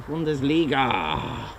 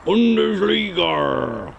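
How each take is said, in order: First: Put-on Bundesliga drawn out in a German accent; slow German pronunciation of Bundesliga. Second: Bundesliga stretched into a pirate's arrr; long, drawn-out pirate Bundesligarrr. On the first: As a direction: say Bundesliga slowly, as a German would. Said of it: "My name is [name] from Germany". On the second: Acted. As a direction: growl out Bundesliga like a pirate, very slowly. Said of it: "you sound like a pirate".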